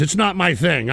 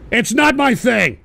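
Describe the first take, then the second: First: Said in the usual way. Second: "It's not my thing" slow and raised in pitch; emphatic denial. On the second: Real, not acted. Host denying to chat, "It's not my thing" slowly emphasized.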